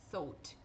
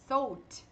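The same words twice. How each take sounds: First: "Thought" with a plain "aw" and stopped t; correct pronunciation. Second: "thought" said wrongly as "oht"; wrong pronunciation. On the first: Teacher gives the correct form after the wrong one. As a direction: say "Thought" the right way, "thawt". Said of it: "só tem o quê". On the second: Teacher shows how "thought" is not said. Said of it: "não tem nenhuma palavra com essa pronúncia". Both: Shown as a demonstration.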